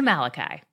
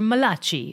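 First: The name is said in a plain English way. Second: The name is said in an Italian-style accent.

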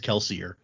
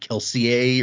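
First: The name is pronounced in an English-like way. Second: The name is pronounced in a French-like way. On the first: This is the common, comfortable pronunciation of the name. The speaker calls it wrong. "even he says Kelsier. So even though he knows that's not the way it's supposed to be pronounced" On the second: This is the intended pronunciation of the name. The speaker calls it right. "those names are supposed to be like French-ish. And like Kelsier's name was actually like Kelsier"

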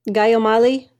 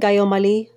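First: The name is said in a plain American accent. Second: The name is said in a Filipino accent.

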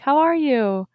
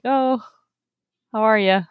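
First: It sounds sincere and genuinely concerned. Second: It sounds casual and offhand.

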